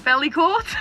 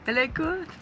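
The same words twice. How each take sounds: First: It is said with an English accent. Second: It is said with a French accent. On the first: "I'm going to say this badly" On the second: "In a French accent"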